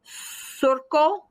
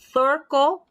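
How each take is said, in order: First: The first sound is an s sound. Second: The first sound is a th sound. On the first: "using a South American accent, the um, accent there is like a S sound" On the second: "if you use a Spanish accent with a soft C, it sounds like the th"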